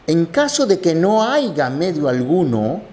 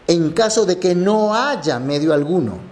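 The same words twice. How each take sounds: First: "haiga" said with a hard g, en caso de que no haiga; nonstandard haiga. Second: "haya" said with a y sound, no g; correct haya. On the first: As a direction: colloquial "haiga" form. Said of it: "no conoce la conjugación haiga". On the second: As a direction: standard haya, en caso de que no haya. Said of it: "la conjugación adecuada es haya". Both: Shown as a demonstration.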